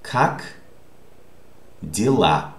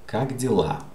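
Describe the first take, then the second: First: "как", long pause, then "дела"; word by word. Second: Said in the usual way. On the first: Shown as a demonstration. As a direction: present "как дела" one isolated word at a time. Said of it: "How do you pronounce this word".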